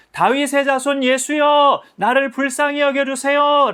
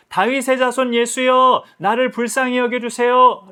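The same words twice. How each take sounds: First: Even higher, louder, slow desperate cry. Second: Crying out. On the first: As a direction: ignore the scolding and shout the plea with all your might. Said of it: "더 크게 소리를 질렀어요". (더 높고 크게 필사적으로 외침) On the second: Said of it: "소리를 지르니까". (높고 크게 천천히 외치는 간청) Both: Acted.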